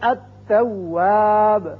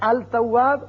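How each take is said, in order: First: The l is silent; the next sound is doubled. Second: The l is pronounced before the next sound. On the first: The speaker calls it right. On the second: The speaker calls it wrong.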